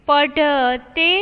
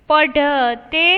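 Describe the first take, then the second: No difference in how they are said.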